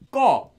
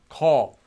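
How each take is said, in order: First: The first consonant is tense and doubled. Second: The first consonant is plain and lax. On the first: The speaker calls it right. "this sound in all cases will become pronounced as this" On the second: The speaker calls it wrong. "not as ko"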